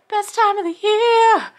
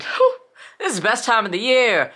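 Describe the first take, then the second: First: Much higher and louder, sung-out Best time of the year; ecstatic repeat. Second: Excited. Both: Real, not acted.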